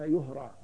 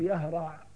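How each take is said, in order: First: It is said in the passive form, yuhra'u. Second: It is said in the active form, yahra'u. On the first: The speaker calls it right. "دائما هذه الفعل لا يقرأ إلا مبنيا للمجهول" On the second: The speaker calls it wrong. "ولا تقول يهرع، غلط"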